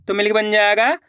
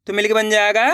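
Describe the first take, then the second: No difference in how they are said.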